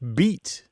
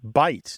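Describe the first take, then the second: First: The vowel sounds like 'ee'. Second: The vowel sounds like 'eye'. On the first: This is the older pronunciation. "used to sound more like beat" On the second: This is the present-day pronunciation. "a word that we pronounce as bite now"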